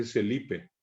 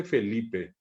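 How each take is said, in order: First: Celipe, soft s for f. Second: Said in the usual way. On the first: Shown as a demonstration. Teacher shows how Felipe gets mispronounced. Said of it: "dice Celipe". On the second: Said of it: "no dice Felipe".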